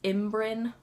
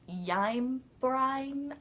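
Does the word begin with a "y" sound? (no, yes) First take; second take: no; yes. First: The word begins with a plain "im" sound. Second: The word begins with a "y" sound. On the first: The speaker calls it right. "That's how you pronounce it" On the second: The speaker calls it wrong. "You just have to kind of read it and go"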